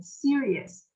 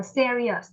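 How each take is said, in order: First: "serious" said as SEER-ee-us; correct ee-uh vowel. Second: "serious" said as SEH-ree-us; mispronounced first vowel. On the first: Teacher correcting students, "serious" as SEER-ee-us. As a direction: give "serious" a clear ee in the first syllable. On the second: Teacher showing students the mistake, "serious" as SEH-ree-us. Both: Shown as a demonstration. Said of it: "Mình đâu đọc là serious".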